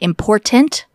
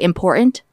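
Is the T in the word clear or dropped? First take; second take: clear; dropped. First: The T sound is clearly pronounced. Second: The T sound is dropped. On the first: The speaker calls it right. "instead of saying important" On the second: The speaker calls it wrong. "I didn't know that I dropped T's"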